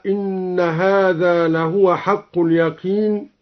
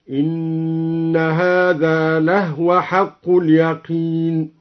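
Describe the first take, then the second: First: Said in the usual way. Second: لهو chanted slowly as "lahwa" with the هاء silent; هاء ساكنة في لهو. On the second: Shown as a demonstration. (ترتيل بطيء بإسكان الهاء في لهو) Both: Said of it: "قرأ الدوري بإسكان الهاء هكذا".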